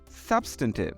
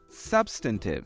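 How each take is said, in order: First: It is said in an American accent. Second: It is said in an American accent.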